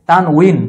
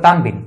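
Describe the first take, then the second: First: The middle consonant is a W sound. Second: The middle consonant is a B sound. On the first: The speaker calls it right. "জের থাকলে এর উচ্চারণ হয়েছে উই" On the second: The speaker calls it wrong. "অনেকে বলে তানবিন, তানবিন উচ্চারণটা ভুল"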